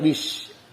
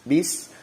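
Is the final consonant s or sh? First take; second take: sh; s. First: It ends with an sh sound. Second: It ends with a flowing s sound. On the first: The speaker calls it wrong. "jangan sampai bish" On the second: The speaker calls it right. "mengalir ketika diucapkannya"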